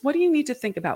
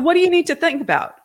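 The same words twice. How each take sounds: First: The tone is warm and curious. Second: The tone is sharp and confrontational. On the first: The speaker is on the listener's side. The speaker calls it right. "if you ask in a curiosity based voice, in a voice based on we're on the same side" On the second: The speaker is challenging the listener. The speaker calls it wrong. "if you say that in a confrontational tone of voice"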